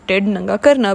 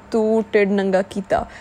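First: "ਢਿੱਡ ਨੰਗਾ ਕਰਨਾ" as the full dictionary phrase, ਕਰਨਾ falling; "ਢਿੱਡ ਨੰਗਾ ਕਰਨਾ" said carefully, the literal way; textbook form. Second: "ਤੂੰ ਢਿੱਡ ਨੰਗਾ ਕੀਤਾ" rattled off fast, stress on ਤੂੰ; "ਤੂੰ ਢਿੱਡ ਨੰਗਾ ਕੀਤਾ" quick, casual, the spoken way; colloquial Punjabi. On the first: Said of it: "that's not how we actually say it". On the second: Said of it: "We say". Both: Shown as a demonstration.

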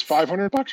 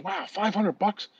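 First: Said in the usual way. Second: Slow, softer stunned question; mock surprise. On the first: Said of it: "She says". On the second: Man repeating Mary Lou's price, slow mock shock. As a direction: let the price sink in slowly. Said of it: "He goes".

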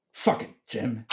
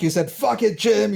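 First: Softer, under-the-breath swear; quietly imitated exasperated curse; muttered curse. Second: Laughing imitation of her swearing; teasing playback. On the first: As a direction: mutter it to yourself in frustration. Woman swearing at husband quietly. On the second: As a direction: throw her words back at her playfully.

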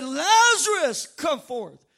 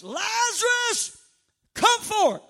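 First: Big slow shout on the name, then easing down; preacher acting out a commanding call; crying out loudly. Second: High, loud commanding call, name stretched out; drawn-out preacher's shout of command; crying out loudly. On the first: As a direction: bellow the name, then drop to a firm command. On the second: Acted. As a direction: call the dead man out at full voice. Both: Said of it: "he cried out with a loud voice".

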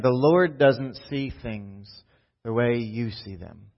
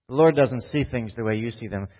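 First: Slow and deliberate, spacing "The Lord doesn't see things"; slow reread. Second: Said in the usual way. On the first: Shown as a demonstration. Pastor rereads the verse slowly so it sinks in. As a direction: lean on each word, slowly. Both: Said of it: "Let's read that again".

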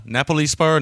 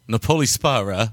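First: Napoli as NAP-uh-lee, higher and questioning; alternative pronunciation. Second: Napoli with a long OH, na-POH-lee; trial pronunciation. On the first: Host second-guessing film title, Napoli as NAP-uh-lee. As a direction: stress the first syllable of Napoli, NAP-uh-lee. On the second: Host sounding out film title, Napoli as na-POH-lee. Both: Shown as a demonstration.

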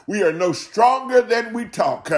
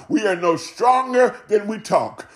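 Both takes have the same delivery.

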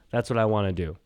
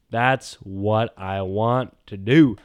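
First: Said in the usual way. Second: Slow drawn-out. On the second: Shown as a demonstration.

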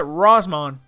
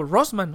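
First: "Rossman" in an exaggerated American accent; fake gringo Rossman. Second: "Rossman" said simply, Spanish-style; just read "Rossman" naturally; plain Rossman. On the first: Mocking the teacher's fake accent on "Rossman". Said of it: "la señora es como que le hace". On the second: Shown as a demonstration. Speaker shows the natural way to say "Rossman". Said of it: "digo, "Rossman".

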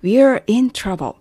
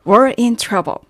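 First: "We're" opened out as "wee-er", slow and clear; full WE'RE. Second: "We're" reduced to one syllable, sounding like "were". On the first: Teacher unpacking the contraction for learners, "We're" said as "wee-er". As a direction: pronounce "We're" fully with the "ee" heard. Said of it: "we'reですね". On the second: Teacher showing how the doctor's line sounds, "We're" heard as "were". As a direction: say "We're" as a quick "wer" before "in trouble". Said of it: "最初のwereと聞こえるところ". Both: Shown as a demonstration.

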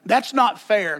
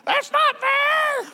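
First: Sulky sibling protest; childish complaint. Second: Put-on high, slow, drawn-out kid's whine; whiny child's wail. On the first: Retold or imitated. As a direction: kid whining about fairness. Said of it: "That song's gonna get sung". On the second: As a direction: wail it like a child cheated by a sibling. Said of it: "over at the Cox house".

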